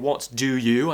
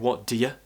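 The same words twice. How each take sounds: First: Each word is said fully and clearly. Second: The words run together quickly and reduced. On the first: "instead of saying what do you" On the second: "I'm saying what do you. It becomes very quick"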